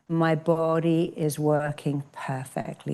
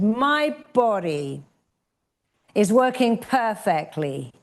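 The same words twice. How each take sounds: First: It is said calmly, without extra force. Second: It is said with more power and passion.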